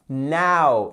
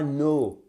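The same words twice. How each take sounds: First: Now drawn from wide ah to oo; open diphthong. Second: Now wrongly said as no; wrong closed vowel. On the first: Teacher correcting learners, Now with wide glide. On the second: Teacher showing the mistake, now closed to no. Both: Shown as a demonstration. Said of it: "et c'est pas no".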